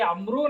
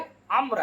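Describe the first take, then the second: First: The name ends with an added final vowel. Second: The name ends on a consonant, no vowel. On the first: The speaker calls it wrong. "ये अमरू नहीं" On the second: The speaker calls it right. "ये अम्र है"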